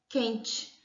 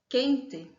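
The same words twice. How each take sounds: First: The final vowel is pronounced like 'ee'. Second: The final vowel is pronounced like 'e'. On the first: "substituir o som do é pelo i" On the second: "ao invés de falarmos"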